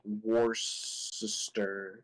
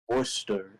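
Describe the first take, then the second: First: The c is soft, sounding like an s. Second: Boston accent, starting with wool instead of war. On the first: "if you use like the C as like a soft C" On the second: "if you put a like Boston accent, like you're not gonna say war, you're gonna say wool"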